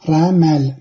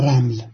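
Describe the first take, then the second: First: A vowel is heard after the middle consonant. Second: No vowel is heard after the middle consonant. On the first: The speaker calls it right. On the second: The speaker calls it wrong.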